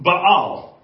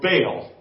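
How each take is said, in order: First: The name is said in a non-American way. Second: The name is said in an American way.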